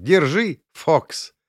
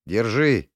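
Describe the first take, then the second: First: Much higher, rising, amused; laughing handover. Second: Said in the usual way. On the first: Acted. Inna returning the helmet, laughing. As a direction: hand it back laughing. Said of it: "вернула её со смехом".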